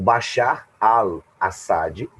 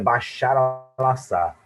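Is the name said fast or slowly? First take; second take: slowly; fast. First: The name is said slowly and carefully. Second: The name is said quickly and run together.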